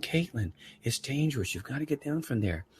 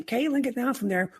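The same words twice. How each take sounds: First: Softer retold plea to a child; calm, lowered-volume parental warning; gentler tone. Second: Much higher, urgent retold yell; raised voice. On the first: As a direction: reason softly with a small daughter. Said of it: "I like that tone better". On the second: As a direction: re-enact yelling at your kid, pitch jumping up. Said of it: "raised my voice".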